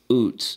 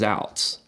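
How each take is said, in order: First: The vowel is an 'oo' sound, like 'boots'. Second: The vowel is an 'ow' sound, like 'outs'. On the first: This is the listed official pronunciation. "the pronunciation guide says it's what?" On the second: This is a nickname that fits a relief pitcher. "your name is basically Outs with a Z in it"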